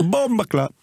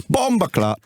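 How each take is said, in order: First: High mock Jamaican exclamation again; Jamaican patois again. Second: High mock Jamaican exclamation; Jamaican patois imitation. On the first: Teasing repeat of Philly's Jamaican curse. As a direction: toss off the Jamaican curse once more. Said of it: "Doesn't say anything else, do you?". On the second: Mimicking Philly's Jamaican curse at the defender. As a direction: fling it out in a Jamaican accent. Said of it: "Looks at you and just goes".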